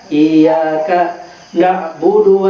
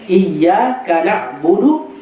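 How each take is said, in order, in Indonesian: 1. Jeda memutus frasa setelah iyyaka. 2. Frasa mengalir tanpa jeda setelah iyyaka. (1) "Dikasih putus?" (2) "Yang diperjelas adalah tasdidnya"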